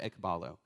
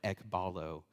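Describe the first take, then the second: First: It is said without a Southern American accent. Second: It is said in a Southern American accent. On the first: The speaker calls it right. "but it's the word ekbalo" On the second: The speaker calls it wrong. "he says in a southern accent and wrong pronunciation"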